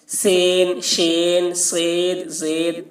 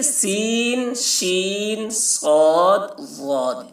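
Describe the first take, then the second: First: سین، شین، سید، زید all with long e; مجہول pronunciation. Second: سین، شین with long ī, صاد، ضاد with long ā; معروف pronunciation. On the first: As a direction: say "sayn, shayn, sayd, zayd". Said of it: "اگر مجہول پڑھتے تو کیسے پڑھتے". (مجہول تلفظ، سب میں "اے") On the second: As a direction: draw out "seen, sheen, saad, zaad". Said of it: "معروف پڑھا گیا ہے". (معروف تلفظ، کھینچ کر) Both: Shown as a demonstration.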